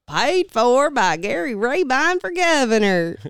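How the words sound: The voice is full with a Southern twang. "I messed around with the Southern accent"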